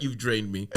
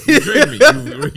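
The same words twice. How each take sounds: First: Said in the usual way. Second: High, loud laughing complaint; laughing mock outrage. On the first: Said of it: "You know what?". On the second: Telling a tiring person off, high and laughing.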